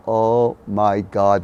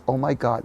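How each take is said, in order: First: Very slow, word-by-word "Oh my God"; drawn-out realization. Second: Said in the usual way. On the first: Retold or imitated. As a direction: stretch each word of "Oh my God". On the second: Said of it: "It was like a".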